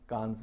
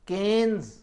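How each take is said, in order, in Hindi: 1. इसमें लंबा 'aa' स्वर है और अंत में s है। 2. इसमें 'e' स्वर है और अंत में s है। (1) "कांस नहीं है" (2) "केन्स भी नहीं है"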